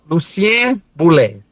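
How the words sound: The name is pronounced the Creole way.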